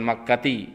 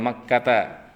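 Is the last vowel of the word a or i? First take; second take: i; a. First: The word ends with an i vowel. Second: The word ends with an a vowel. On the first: The speaker calls it wrong. "bukan Makkati" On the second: The speaker calls it right. "ila Makkata"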